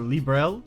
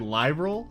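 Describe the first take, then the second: First: The name is said with two syllables. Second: The name is said with three syllables. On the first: This is how the name is officially pronounced. "They pronounce it more like a Librel" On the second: This is how the speaker instinctively wants to say it. "I always want to say Liberal"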